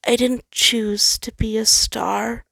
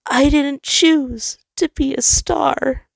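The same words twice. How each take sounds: First: Slow, higher, defeated and drained; quiet defeated admission. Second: Very high, louder and slow, full of grief; grieving. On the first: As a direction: let it fall out, all fight gone. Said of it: "sounding much more defeated as he quietly admitted". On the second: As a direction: ache over every word. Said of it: "he grieved". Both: Acted.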